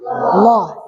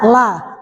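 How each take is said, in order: First: The l sound is heavy and thick. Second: The l sound is light and thin. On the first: "Kalau tafkhim" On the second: "Kalau tarkik"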